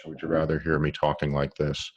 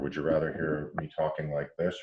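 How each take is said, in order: First: Said in the usual way. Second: Speaking away from the microphone; turned away from the mic, distant and roomy; off-mic, thin and far off. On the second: Shown as a demonstration.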